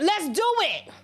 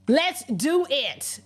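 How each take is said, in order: First: High quick challenge, let's do it; defiant dare. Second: Slow, drawn-out let's do it; slow defiant dare. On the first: Urging viewers to meet a threat with a high defiant dare. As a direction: snap it back as a dare. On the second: Telling viewers to answer a threat with a slow deliberate dare. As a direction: spell out the challenge slowly and firmly. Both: Retold or imitated. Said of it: "You was supposed to be like".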